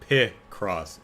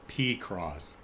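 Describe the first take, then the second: First: The first syllable sounds like 'pick'. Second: The first syllable sounds like 'pee'. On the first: The speaker calls it right. "as in pick and cross" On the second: The speaker calls it wrong. "not P cross"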